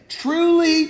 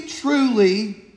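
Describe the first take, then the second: First: "Truly" lifted high, weighty and solemn; solemn emphasis. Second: Said in the usual way. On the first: Shown as a demonstration. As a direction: give "Truly" a raised, grave biblical ring. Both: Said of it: "we just don't talk like that".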